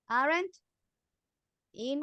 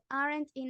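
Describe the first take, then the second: First: The two words are said with a separation. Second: The two words run together without a break. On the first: The speaker calls it wrong. "Instead of saying" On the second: The speaker calls it right. "we're going to join"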